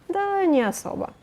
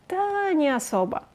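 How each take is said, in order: Both takes have the same delivery.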